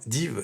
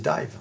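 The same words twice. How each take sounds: First: It is pronounced the French way. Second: It is pronounced the English way.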